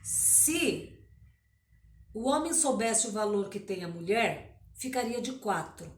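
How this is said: The pause comes after the word 'mulher'. The woman has great value. "Eu leio assim e ponho a vírgula"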